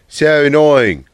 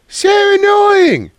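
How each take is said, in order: First: It is said in the speaker's normal voice. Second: It is said in a put-on girly voice.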